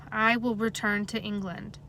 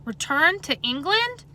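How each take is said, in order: First: Said in the usual way. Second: Shocked, slow rising question; surprised. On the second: A narrator's reading. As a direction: echo it back in disbelief. Boy echoes in shock.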